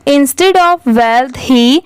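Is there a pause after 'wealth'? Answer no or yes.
no. The words run together with no pause. The speaker calls it wrong. "ऐसे साथ में पढ़ते जाएंगे तो ऐसे नहीं पढ़ेंगे"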